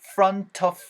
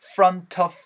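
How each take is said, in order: First: The t is heard and linked into 'of'. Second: The t is heard and linked into 'of'.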